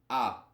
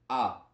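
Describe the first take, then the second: No difference in how they are said.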